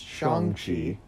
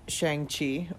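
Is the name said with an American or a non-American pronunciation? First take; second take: non-American; American. First: The name is said with a non-American pronunciation. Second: The name is said with an American pronunciation. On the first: The speaker calls it right. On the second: The speaker calls it wrong.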